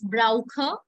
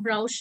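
First: The ch is a throaty kh sound. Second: The ch is not a throaty kh sound. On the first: The speaker calls it right. "it's brauche. Always remember when you have CH in any word, try to read it with the kha pronunciation first" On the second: The speaker calls it wrong. "not brauche"

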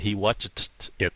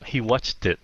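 First: Each word is said separately and in full. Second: The words run together in one reduced chunk. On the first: "hơn rằng là" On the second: "con người nào cũng làm biếng á, cho nên thà nói là"

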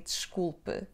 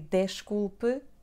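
First: The final vowel is dropped. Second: The final vowel is clearly pronounced. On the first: The speaker calls it right. "we drop the E sound" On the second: The speaker calls it wrong. "we do not say desculpe"

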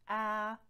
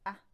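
First: The vowel is held for longer. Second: The vowel is held only briefly. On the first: "and long vowels" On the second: "they come as short vowels"

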